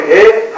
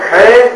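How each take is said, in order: First: ہے as a light, plain h; light-voiced he. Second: ہے as a thick, heavy ح from the throat; heavy-voiced he. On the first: Teacher contrasting two letters, ہے said light and plain. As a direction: let ہے out lightly, without thickening it. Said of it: "ہلکی آواز میں نکلے گی". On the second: Teacher contrasting two letters, ہے said thick and heavy. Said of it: "موٹی آواز میں". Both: Shown as a demonstration.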